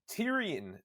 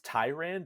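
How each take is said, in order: First: The name has three syllables, like Tyrion. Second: The name has two syllables, like tyrant. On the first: The speaker calls it wrong. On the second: The speaker calls it right.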